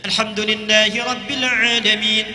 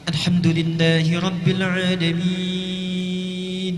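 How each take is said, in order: First: It is recited quickly with short vowel lengths. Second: It is recited slowly with very long vowels. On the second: "yang paling panjang"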